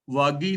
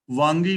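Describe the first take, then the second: First: ਵਾਗੀ with plain "vaa", no nasal; wrong reading. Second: ਵਾਂਗੀ with a nasal first vowel; ਵਾਂਗੀ as "vaang-gee"; correct reading. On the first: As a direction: say ਵਾਗੀ without "ng". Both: Shown as a demonstration. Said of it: "ਵਾਗੀ ਨਹੀਂ ਪੜਨਾ".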